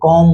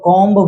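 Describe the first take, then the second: First: The word ends with no B sound. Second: The word ends with a sounded B. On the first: The speaker calls it right. "क्या बोलेंगे" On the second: The speaker calls it wrong. "कॉम्ब बोलेंगे, नहीं बोलेंगे"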